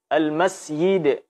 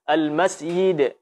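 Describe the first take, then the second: Both takes have the same delivery.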